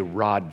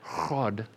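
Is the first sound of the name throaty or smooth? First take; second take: smooth; throaty. First: The name starts with a smooth, plain r sound. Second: The name starts with a harsh, throat-clearing sound. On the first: The speaker calls it right. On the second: The speaker calls it wrong.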